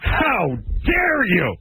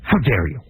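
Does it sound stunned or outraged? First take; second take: outraged; stunned. First: It sounds full of built-up anger and outrage. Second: It sounds caught off guard and still processing.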